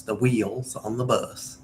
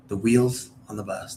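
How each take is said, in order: First: Slow Southern "whee-uls" on wheels; two-syllable wheels. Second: Wheels said quickly in one beat; one-syllable wheels. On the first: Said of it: "I made it very, like, two syllable". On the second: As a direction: keep wheels to a single syllable. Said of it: "even though it's a one syllable". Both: Shown as a demonstration.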